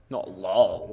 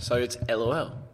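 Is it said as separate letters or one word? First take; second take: one word; separate letters. First: It is said as a single one-syllable word. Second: It is spelled out as three separate letters. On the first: The speaker calls it wrong. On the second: The speaker calls it right. "you don't say, puh... you say TBH, TBH, so it's LOL"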